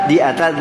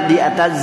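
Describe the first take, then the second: The two takes are said the same way.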